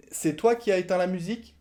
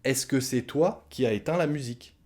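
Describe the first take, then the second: First: "C'est toi qui as éteint la musique?" high, lifted at "musique"; rising question tune. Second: Said in the usual way. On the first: Shown as a demonstration. Teacher showing the oral question, rising. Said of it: "Point d'interrogation". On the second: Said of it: "C'est une phrase affirmative".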